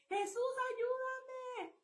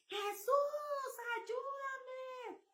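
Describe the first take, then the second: First: Slow, high drawn-out plea; reenacted cry. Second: High, pleading shout of a name; desperate cry for help. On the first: Telling the congregation how she shouted, a slow high plea. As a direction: stretch each word out as a cry to heaven. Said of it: "Así grité". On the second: Retold or imitated. Woman recalling her terror cries out to Jesus, high and pleading. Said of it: "grité a todo pulmón".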